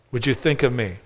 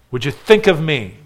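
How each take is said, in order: First: A quiet, pleading echo of the line; soft echo. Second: Said in the usual way. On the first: Retold or imitated. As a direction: repeat it much softer. Preacher repeats thief's plea softer.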